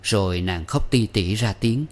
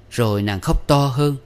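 First: Said in the usual way. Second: Louder reading. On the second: A narrator's reading.

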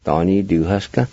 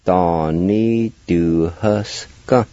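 First: Said in the usual way. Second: Donnie du huske drawn out very slowly, each part separate; slow and careful. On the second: Shown as a demonstration. Teacher slowly modelling the word for students. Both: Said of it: "You pronounce it like this".

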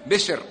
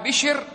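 First: بسر said with a plain s before the r; بسر with s, not sh; undotted sin. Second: بشر said "bishr", with sh; بشر with sh, not s; dotted shin. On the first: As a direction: make the s in بسر clear. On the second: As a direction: make the sh in بشر clear. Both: Shown as a demonstration. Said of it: "لا تحط مكان بشر".

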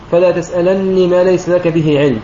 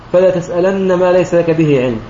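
First: تسألني with a doubled, kasra-voweled nun and no final ya, recited slowly; Qalun's reading. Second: تسألن ending on a doubled nun with fatha and no ya; Ibn Kathir's reading. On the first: Teacher demonstrating Qalun's reading to students, slow measured recitation. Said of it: "بتشديد النون مكسورة مع حذف الياء". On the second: Teacher demonstrating Ibn Kathir's reading, measured recitation. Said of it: "بتشديد النون مفتوحة". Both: Shown as a demonstration.

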